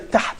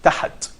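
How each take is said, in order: First: No vowel is heard between h and t. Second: An extra vowel is heard between h and t. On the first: The speaker calls it right. "you're making sukoon. You don't pronounce that at all" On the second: The speaker calls it wrong. "you're putting a vowel, which probably called fatha"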